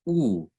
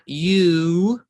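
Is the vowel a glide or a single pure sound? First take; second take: pure; glide. First: The vowel is one short pure sound. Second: The vowel is made of two sounds. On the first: The speaker calls it right. "It's ooh" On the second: The speaker calls it wrong. "which is actually two sounds"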